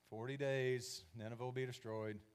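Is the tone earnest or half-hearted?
half-hearted. It is said in a bored, half-hearted tone.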